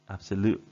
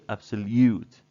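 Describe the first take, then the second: First: The l goes straight into 'oo' with no 'y'. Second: A 'y' sound comes between the l and 'oo'. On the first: "They say absolute" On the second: "they don't say absolute"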